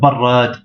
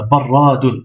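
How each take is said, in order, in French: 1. Le mot s'arrête sur une consonne finale nue. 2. Le mot se termine par la syllabe 'un'.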